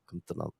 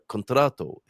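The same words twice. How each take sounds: First: The vowels are reduced and partly swallowed. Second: Every syllable is pronounced fully and clearly. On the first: This is how people say it in conversation. "he said something like contrato" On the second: This is how the word is written. "although it looks like contrato"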